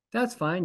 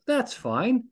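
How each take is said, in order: First: Said in the usual way. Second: "That's fine." pitched way up with a rising tune; high mock concession. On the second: Shown as a demonstration. Host allowing a wrapper in the door, high rising concession. Listing acceptable trash.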